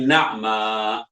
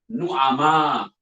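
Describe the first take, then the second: First: The first vowel is 'a'. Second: The first vowel is 'u'. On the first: The speaker calls it right. "yang betulnya na'ma" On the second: The speaker calls it wrong. "saya kerap dengar nah imam baca nu'ama"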